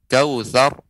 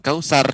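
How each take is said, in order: First: The middle consonant sounds like 'th' in 'think'. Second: The middle consonant sounds like a plain 's'. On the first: The speaker calls it right. "Kautsar bukan kausar ya" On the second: The speaker calls it wrong. "bukan kausar"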